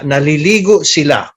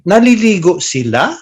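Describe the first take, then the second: First: The voice falls at the end. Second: The voice rises at the end. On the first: It states that they are taking a bath. "That means they're taking a bath" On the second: It asks whether they are taking a bath. "if you go up at the end"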